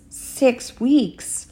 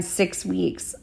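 First: Higher, drawn-out incredulous echo; taken aback. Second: Said in the usual way. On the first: A narrator's reading. Father hears how long the wait is, taken aback. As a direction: repeat it slowly in disbelief.

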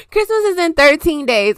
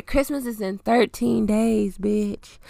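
First: Emphatic correction. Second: Softer, slower, laid-back restatement; quiet repeat. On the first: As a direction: announce it with energy. Correcting the countdown. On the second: Repeating the countdown to listeners, soft slow and dry. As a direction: let it drop, slow and soft. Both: Real, not acted.

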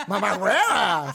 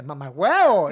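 First: Loud, drawn-out Venezuelan "Mamá hueva"; hammed-up, laughing Venezuelan accent on "Mamá hueva"; exaggerated Venezuelan accent. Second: Loud mock Venezuelan "Mamá huevo"; loud imitation of someone's Venezuelan slip; imitating Venezuelan accent. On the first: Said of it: "tú tienes un acento neutro venezolano". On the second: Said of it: "tiras pa' un ladito y tú tiras".

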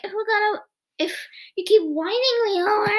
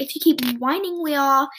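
First: Higher, whiny mimic of Mike's line; mocking imitation. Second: Said in the usual way. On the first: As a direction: parrot him back to tease. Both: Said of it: "Basically mimicking him".

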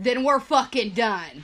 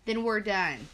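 First: Loud, slow, defiant comeback; defiant retort. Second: Said in the usual way. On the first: Retold or imitated. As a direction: throw it back at him, hitting each word. Throws his ultimatum back at him. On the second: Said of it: "He looked at me and he goes".

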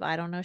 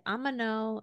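First: Said in the usual way. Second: Put-on "I'm a no" said as a toddler's version of I don't know; toddler mispronunciation. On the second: Mom showing how her daughter used to say I don't know, as "I'm a no". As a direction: say "I'm a no" the way a little kid mangles I don't know. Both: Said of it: "instead of".

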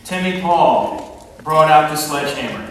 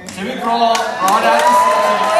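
First: Said in the usual way. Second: Shouted. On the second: Shown as a demonstration. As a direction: shout it higher and louder. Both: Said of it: "repeated louder".

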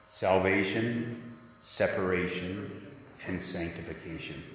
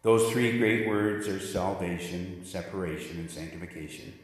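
First: "Salvation, separation, and sanctification" drawn out slowly, each word given its own beat; slow call and response. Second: Said in the usual way. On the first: Shown as a demonstration. Pastor leads the congregation in repeating the three words, slow call and response. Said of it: "I'd like you to say with me". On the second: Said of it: "say with me this morning what those three words are".

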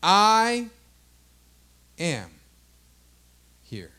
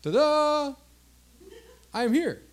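First: Long pause after each of "I", "am", "here"; weighty declaration. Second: High, showy little arrival; higher-pitched, breezy self-announcement; mock ta-da announcement. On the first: Acted. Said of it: "He said". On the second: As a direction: sing out a playful grand entrance. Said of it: "He's not just saying".

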